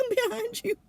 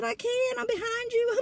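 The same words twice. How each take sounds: First: Laughing through the words. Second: Higher, half-laughing helpless reply; helpless protest. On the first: [name] telling Marie she's stuck too, laughing. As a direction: repeat it, cracking up. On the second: [name] answering panicked Marie, high helpless protest. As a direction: plead you can't do anything, high. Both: Retold or imitated. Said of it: "And I said".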